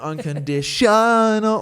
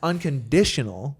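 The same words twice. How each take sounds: First: The stress falls on the syllable shun. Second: The stress falls on the syllable di. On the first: The speaker calls it wrong. "it's so unnatural" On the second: The speaker calls it right. "everyone puts the emphasis on unconditional, the di"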